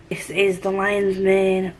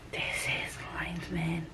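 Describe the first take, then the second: First: Said in the usual way. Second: Slow, hushed whisper. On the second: Pretend. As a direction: whisper it slowly, drawing it out. Repeats the line in a whisper.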